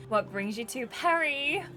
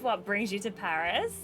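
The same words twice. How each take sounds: First: "Paris" said the French way, "pa-REE"; French-style Paris. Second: Said in the usual way. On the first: Acted. Character corrects herself, "Paris" said as French "pa-REE". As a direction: say "Paris" with silent s, end stressed. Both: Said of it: "She'd say".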